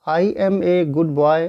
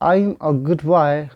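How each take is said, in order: First: 'I am' is said as two full words. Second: 'I am' is shortened into one syllable. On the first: "लिखा हुआ है" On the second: "संक्षिप्त करेंगे"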